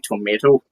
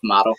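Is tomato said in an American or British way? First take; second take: American; British. First: It is said with an American pronunciation. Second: It is said with a British pronunciation. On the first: The speaker calls it wrong. "which I know is more of an American thing" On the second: The speaker calls it right. "it's tomato"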